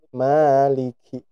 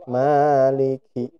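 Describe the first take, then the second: The two takes are said the same way.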